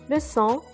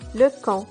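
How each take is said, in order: First: The second syllable starts with an S sound. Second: The second syllable starts with a K sound. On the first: The speaker calls it right. "au lieu d'avoir le son S" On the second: The speaker calls it wrong. "on va obtenir le son K"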